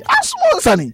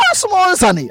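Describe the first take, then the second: First: Much higher, squeaking mock plea; mock squeal of exasperation. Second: Higher, mock exasperated plea; mock exasperated Ronaldo. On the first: Imitating Ronaldo fed up with critics, squealing very high. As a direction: push the voice way up in mock despair. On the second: Imitating Ronaldo fed up with critics, higher plea. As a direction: pitch it up as if fed up. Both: Retold Ronaldo complaint at press.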